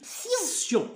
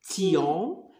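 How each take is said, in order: First: It begins with an S sound. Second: It begins with a T sound. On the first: The speaker calls it right. "mais on dit sion" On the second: The speaker calls it wrong. "on dit pas tion"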